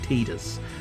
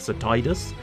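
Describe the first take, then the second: First: The first syllable sounds like 'tee'. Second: The first syllable sounds like 'tide'. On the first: The name evokes the word tedious. "the official pronunciation is Tidus. But to me, that sounds a little bit too much like tedious" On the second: The name links the character to water and the tide. "Tide, as in the water tide"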